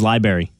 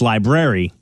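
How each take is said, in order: First: A sound in the word is dropped or reduced. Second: Every syllable of the word is said clearly. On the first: This is how most people say it. The speaker calls it wrong. "everybody says library" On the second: This is the correct form. The speaker calls it right. "it's library"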